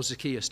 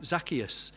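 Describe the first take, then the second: First: Zacchaeus with a weak first vowel, zuh-KEE-us; Zacchaeus the other way. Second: Zacchaeus with a full first vowel, ZAK-ee-us; Zacchaeus one way. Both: Shown as a demonstration. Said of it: "depending on how you pronounce it".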